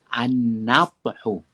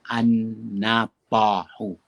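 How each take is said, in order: First: No vowel follows the t sound. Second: A short 'a' vowel follows the t sound. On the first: "dibaca dengan baris mati pada huruf ta" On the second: "boleh dibaca dengan baris atas pada huruf ta"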